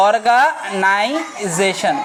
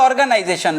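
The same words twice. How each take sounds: First: অর্গানাইজেশন very slow and lower; অর্গা-নাই-জেশন, drawn out for learners; syllable-by-syllable demo. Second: Said in the usual way. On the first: Shown as a demonstration. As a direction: sound out অর্গানাইজেশন in separate, stretched syllables. Teacher sounds out English term.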